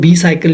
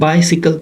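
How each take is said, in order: First: The first syllable sounds like 'bee'. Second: The first syllable sounds like 'bye'. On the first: The speaker calls it wrong. "कुछ लोग होते हैं वो बी साइकिल use पढ़ते हैं इसको।" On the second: The speaker calls it right. "Pronounce इसको किस तरह से करते हैं?"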